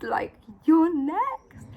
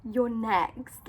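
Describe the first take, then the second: First: Slow, drawn-out whisper; dramatic whisper. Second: Said in the usual way. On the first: Retold or imitated. Clerk insisting to Rebecca she's next, slow whisper. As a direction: hush it slowly for suspense.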